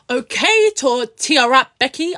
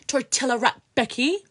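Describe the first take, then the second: First: Mocking taunt. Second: Said in the usual way. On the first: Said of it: "And I was like". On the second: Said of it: "I called it".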